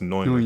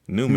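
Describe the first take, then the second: First: It is not said like the name Newman. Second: It is said like the English name Newman. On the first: The speaker calls it right. "It's pronounced Neumann" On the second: The speaker calls it wrong. "when you see like on paper or whatever, it's like, oh, Newman"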